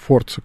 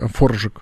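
First: The middle consonant is a 'ts' sound. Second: The middle consonant is a 'zh' sound. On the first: The speaker calls it wrong. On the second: The speaker calls it right.

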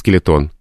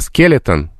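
First: The stress is on a later syllable. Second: The stress is on the first syllable. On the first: This is the stress the word has in Russian now. "в русском языке превратился в скелетон" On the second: This is the stress of the word as originally borrowed. "И с недавним видом спорта скелетон"

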